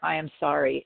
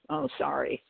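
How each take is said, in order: First: It is said clearly and sincerely. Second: It is mumbled in a remorseful way.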